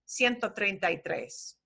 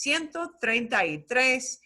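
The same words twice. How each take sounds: First: The words are run together without breaks. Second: The words are said slowly and separately. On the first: "It's still going to sound slurred together" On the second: "they might actually slow down and say it that slowly for you"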